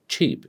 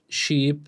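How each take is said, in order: First: CHEAP with a ch onset; cheap, ch as in chin; ch sound. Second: Sheep, sh with no t before it; sh sound. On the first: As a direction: start cheap on a stopped ch. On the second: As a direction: start sheep on a smooth sh. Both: Shown as a demonstration. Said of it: "you must distinguish between these".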